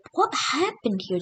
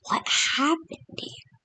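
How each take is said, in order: First: High, puzzled voiced question. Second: Hushed whispered question. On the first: Algerians finding the nuked desert, asking aloud, puzzled. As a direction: ask it aloud, bewildered. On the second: Retold or imitated. Algerians staring at the wreckage, whispering in shock. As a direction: breathe it out in a stunned whisper. Algerians find nuked desert.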